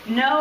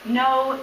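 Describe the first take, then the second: First: The no sounds casual and offhand. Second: The no sounds firm and resolute. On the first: It is an unthinking refusal. "the careless no" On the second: It is a refusal that protects oneself. "we say a holy no"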